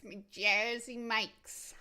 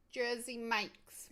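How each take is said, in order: First: Louder, slow My Jersey Mike's in a hammed-up British-New York accent; mixed British-New York accent. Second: Put-on slow, drawn-out Jersey Mike's in a mixed British and New York accent. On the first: Streamer to chat, repeating her sandwich name in a louder mock British-New York accent. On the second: Streamer to chat about her sandwich, slow mock British-New York accent. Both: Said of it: "mixing my British accent and my New York accent".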